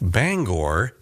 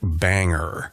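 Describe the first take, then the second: First: The last syllable sounds like 'gore', as in stores. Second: The last syllable sounds like 'ger', as in hangar. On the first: The speaker calls it right. "Bangor is the correct pronunciation" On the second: The speaker calls it wrong. "be sure not to pronounce it Bangor. The locals hate that"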